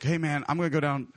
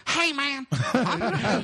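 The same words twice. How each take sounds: First: Said in the usual way. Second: High-pitched mock party-guy voice; Matt. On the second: Friend announcing he is going out, high hammed-up impression. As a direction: squeal it like an over-eager buddy. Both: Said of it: "and Matt's like".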